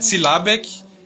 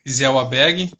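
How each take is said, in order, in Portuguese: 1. O nome é pronunciado do jeito alemão. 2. O nome é pronunciado do jeito português. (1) "porque é o nome alemão, se pronuncia Zillabek" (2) "aqui no Brasil a gente sempre fala"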